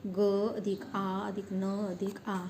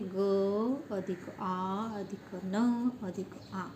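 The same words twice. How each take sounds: First: Said in the usual way. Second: Slow sounding out. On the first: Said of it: "गाना शब्द की ध्वनि आवाज़ें कौन सी है?". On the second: Shown as a demonstration. Teacher breaking गाना into sounds for children, slowly. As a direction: say ग अधिक आ अधिक न अधिक आ at half speed, every part spaced out. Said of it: "कितनी ध्वनि आती है?".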